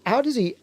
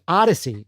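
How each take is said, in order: First: The name is said like 'aw-deez'. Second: The name is said like 'odyssey'. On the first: The speaker calls it wrong. "or I should say" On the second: The speaker calls it right. "is actually how you pronounce it"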